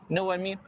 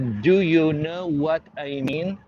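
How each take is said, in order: First: It is said reduced, like the African American guy. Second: It is said fully, every word pronounced.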